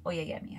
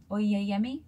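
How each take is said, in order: First: "Oyeyemi" softer with a falling, settled tune; confirming the pronunciation. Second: "Oyeyemi" with a rising, unsure tune; testing the pronunciation; questioning. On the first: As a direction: say the name as the final answer. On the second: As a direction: try the name like a question. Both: Shown as a demonstration. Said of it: "I think".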